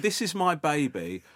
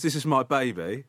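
First: Slow, mock-proud presentation; self-important boasting. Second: Said in the usual way. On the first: Proud mother showing her baby to a comedian, mock-boastful. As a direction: say it slowly like a unique achievement, imitating her. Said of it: "like she was the only person that ever achieved that".

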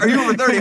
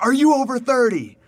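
First: Imitated boisterous tout, high and loud, own accent; boisterous man, accent dropped. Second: Boisterous Dutchman, high-pitched bad Dutch accent; badly faked Dutch accent, pitched up; attempted Dutch accent. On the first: Boisterous man accosts a tourist, imitated without the accent. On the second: Boisterous Dutch man accosts a tourist, attempted Dutch accent. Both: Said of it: "I won't do the Dutch accent".

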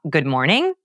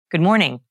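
First: MORNING rising like a question; question inflection. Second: MORNING falling firmly at the end; a plain statement with a drop on MORNING; stated, not asked. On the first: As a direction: ask the greeting, pitch climbing on MORNING. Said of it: "don't ask". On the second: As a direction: state the greeting, bringing MORNING down. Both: Shown as a demonstration.

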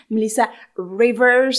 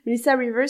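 First: Slow, loud Melissa Rivers with a thick English accent. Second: Said in the usual way. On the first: Shown as a demonstration. Trying the name for the listeners in a thick English accent. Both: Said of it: "avec mon accent anglais à couper au couteau".

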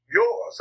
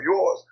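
First: Yours lifted high, rising and drawn out; stress on yours. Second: Yours said with a lighter rising stress; stress on yours again. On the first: Urging young filmmakers to own mistakes, stressing yours. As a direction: lean hard on yours, rising. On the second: Repeating his point to young creatives, lightly stressing yours. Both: Shown as a demonstration. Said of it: "I emphasize that word".

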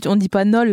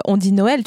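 First: "Nol" said with one clipped syllable; wrong pronunciation. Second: "Noël" said with two syllables, no-el; correct pronunciation. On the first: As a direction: squash it into a single syllable, "Nol". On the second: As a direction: spell out "Noël" as no-el. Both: Shown as a demonstration.

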